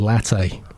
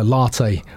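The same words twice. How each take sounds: First: It is said with a plain, ordinary pronunciation. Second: It is said with a posh, pretentious pronunciation. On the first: The speaker sounds like everyone else. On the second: The speaker sounds pretentious.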